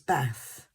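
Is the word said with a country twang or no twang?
country twang. It is said with a country twang. "My daughter really has a country twang"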